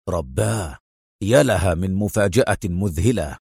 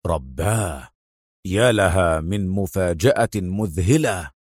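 First: Low-pitched, hushed amazement; astonished exclamation. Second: Low, slow, drawn-out astonishment; stunned exclamation. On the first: Adham recognises the man in the photos, astonished but low. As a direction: start with a lowered gasp of disbelief. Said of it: "فهتف أدهم". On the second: Adham reads the address and jumps up, slowly stunned. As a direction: stretch out the disbelief in a deep, lowered voice. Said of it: "يهب واقفا وهو يهتف". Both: A narrator's reading.

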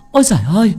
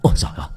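First: High, loud wail of a horrified wife; hollering for the village. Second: Low, pained exclamation; a subdued groan of a man in pain; cry of pain. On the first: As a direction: raise the alarm in a high, loud cry. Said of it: "la làng la xóm". (la làng la xóm thất thanh) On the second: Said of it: "đau đớn la lên". (kêu lên đau đớn, giọng trầm) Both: A narrator's reading.

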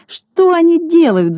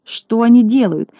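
First: High, slow howl of despair; howling wail. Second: Wailing. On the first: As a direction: wail it out far higher. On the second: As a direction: cry out in dismay. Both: A narrator's reading. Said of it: "завопил Клопс".

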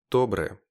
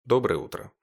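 First: Loud short greeting shouted from a room; called from another room. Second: Loud greeting called through the apartment; yelled across the flat. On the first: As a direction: shout it back from the next room. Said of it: "также крикнула Ника из комнаты". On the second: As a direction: call it out to the whole flat. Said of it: "проорала на всю квартиру". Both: A narrator's reading.

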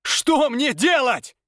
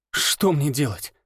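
First: A slow, high anguished call; high cry. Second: Breathed out. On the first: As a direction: cry the question out. Repeated question, cry. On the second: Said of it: "выдохнул я". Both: A narrator's reading.

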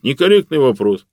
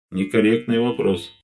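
First: Mimicking the AI. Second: Flat AI voice. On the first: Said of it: "он мне в ответ". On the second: A narrator's reading. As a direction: answer like a polite computer. AI's reply. (ровный голос машины)

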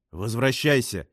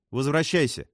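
First: Angry. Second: Higher-pitched order to return; commanding. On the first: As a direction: snap the order with mild anger. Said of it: "рассердился Адриан". (сердито, но сдержанно) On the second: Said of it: "велела Джессика". (повелительно, повышенным голосом) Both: A narrator's reading.

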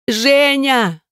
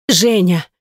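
First: High scream of his name breaking into crying; scream turning to sobs. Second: Said in the usual way. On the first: A narrator's reading. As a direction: cry his name out over his body. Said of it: "Крик перешёл в рыдание".

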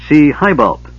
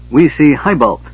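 First: Loud, lofty and pleased; proud. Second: Announcing. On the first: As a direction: say it with puffed-up pride. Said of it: "Bupu said proudly". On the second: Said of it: "she announced". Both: A narrator's reading.

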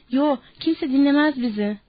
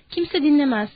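First: Understated admission of defeat; giving in. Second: Higher, mildly shouted dismissal; shouted scorn. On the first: Old Candy admitting nobody would listen, giving in. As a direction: concede it, drawing out the no. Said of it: "diye kabullendi". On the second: Woman telling the men nobody will believe them, mildly shouted. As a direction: throw it at them with raised voice. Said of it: "diye bağırdı kadın". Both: A narrator's reading.

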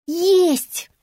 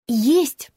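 First: Insistent. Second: Short rising objection; objecting. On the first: Stubborn repeat in a dispute. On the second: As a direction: contradict with a quick rising «Есть». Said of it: "возразила девица". (возражая, с подъёмом: «Есть») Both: A narrator's reading.

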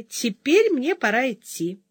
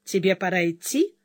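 First: Said in the usual way. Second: Sarcastic. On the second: A narrator's reading. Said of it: "саркастически повторила она".

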